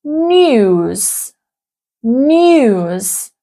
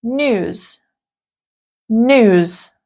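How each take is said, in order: First: News said as "nyooz", with a Y glide after the N; British news with yod. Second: News said as "nooz", no Y glide after the N; American yod-dropping. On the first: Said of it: "in British English, we would pronounce". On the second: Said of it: "in American English, it would be". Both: Shown as a demonstration.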